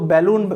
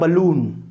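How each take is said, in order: First: The first vowel is full, like in 'bat'. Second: The first vowel is short and weak. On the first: The speaker calls it wrong. "लोग इसको बैलून गलत pronounce कर देते हैं" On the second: The speaker calls it right. "तो इसका pronunciation होता है बलून"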